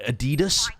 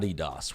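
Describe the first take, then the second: First: The name is said the American way. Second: The name is said the English way. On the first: The speaker calls it wrong. "as you Americans like to call it" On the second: The speaker calls it right. "No, it's called Adidas. We pronounce it the way that the people who made the company wanted"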